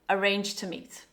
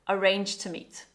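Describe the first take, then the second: No difference in how they are said.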